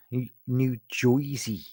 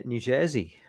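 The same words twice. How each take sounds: First: Slow, drawn-out put-on New Jersey accent; mock New Jersey accent. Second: Said in the usual way. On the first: Shown as a demonstration. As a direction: stretch out New Jersey like a Jersey local. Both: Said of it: "My, my accent is so on point".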